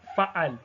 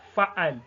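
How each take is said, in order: First: The word ends on a bare consonant. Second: The same.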